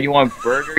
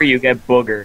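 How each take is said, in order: First: Said in the usual way. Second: "booger" in place of burger, vowel like book. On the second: Retold or imitated. Friend mimicking the clerk's slip, burger said as "booger". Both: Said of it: "You sound like you said".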